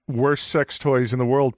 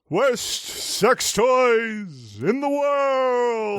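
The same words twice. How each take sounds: First: It is said in a plain, normal speaking voice. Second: It is said in an imitated newscaster-style voice. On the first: The speaker calls it wrong. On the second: The speaker calls it right.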